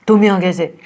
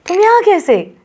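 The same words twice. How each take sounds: First: It is said in an angry tone. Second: It is said in an excited tone.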